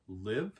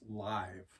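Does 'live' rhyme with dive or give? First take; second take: give; dive. First: The vowel is a short 'i' sound. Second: The vowel is a long 'eye' sound. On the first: The speaker calls it right. "it has always been said wrong, that they're actually called live" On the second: The speaker calls it wrong. "makes it hard, like a capital I"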